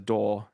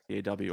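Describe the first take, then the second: First: It is said as one word, daw. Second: It is said as three separate letters.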